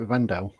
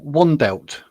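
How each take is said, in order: First: It begins with V and has no final T. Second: It begins with W and ends with T. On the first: The speaker calls it right. "it's a V and a silent T apparently" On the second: The speaker calls it wrong. "like pronouncing the W and the T"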